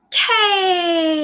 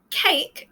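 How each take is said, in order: First: CAKE with the vowel held very long, pitch raised; stretched vowel. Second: Said in the usual way. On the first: Shown as a demonstration. Teacher showing a vowel can stretch, long drawn-out "cake". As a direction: draw out the A in "cake" in one long breath. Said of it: "stress the word cake, I could say". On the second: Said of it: "If I wanted to stress".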